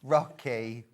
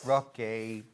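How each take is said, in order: Both takes have the same delivery.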